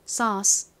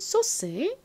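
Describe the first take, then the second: First: It is said with an American 'aw' vowel. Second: It is said with Korean-style vowels, 'so-seu'. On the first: "미국식 발음으로는 에이유가 어 소리가 나니까" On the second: "한국식으로는"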